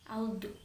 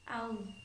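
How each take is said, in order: First: The final consonant ends with an echoing bounce. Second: The final consonant ends smoothly without any bounce. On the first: The speaker calls it wrong. "Tidak boleh dipantulkan seperti ini" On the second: The speaker calls it right. "Cara melafalkan yang benar sekali lagi seperti ini"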